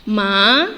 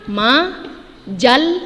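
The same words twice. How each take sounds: First: Majalah split at the correct syllable boundary; teacher showing the correct split. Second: Majalah split in the wrong place and drawn out slowly; teacher showing a mistaken split. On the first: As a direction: say majalah the right way. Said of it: "yang benarnya adalah". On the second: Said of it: "dia sudah keliru". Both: Shown as a demonstration.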